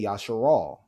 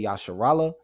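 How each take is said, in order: First: The word stops on the final L sound. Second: The word ends with a vowel after the L. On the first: "They may stop on that L" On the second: "some people may say"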